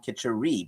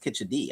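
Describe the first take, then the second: First: The middle consonant is an R sound. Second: The middle consonant is a D sound. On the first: This is how it was heard at home. The speaker calls it wrong. "I always heard it from my mom Kitchery" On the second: This is how other Indian speakers say it. The speaker calls it right. "I think it's a D, not an R"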